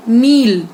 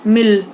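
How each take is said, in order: First: मील loud with a drawn-out EE; slow, long-vowelled मील. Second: मिल loud with a quick short I; short vowel. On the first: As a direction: stretch the EE in मील. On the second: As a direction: keep the I in मिल brief. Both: Shown as a demonstration. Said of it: "उच्चारण पर ध्यान दीजिए".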